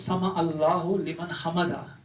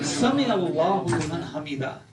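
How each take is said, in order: First: The first word is said with an 'a' vowel. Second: The first word is said with an 'i' vowel. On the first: The speaker calls it wrong. "हम ये नहीं कहते" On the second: The speaker calls it right. "तो अरब उसको समा नहीं कहते, समिया कहते हैं"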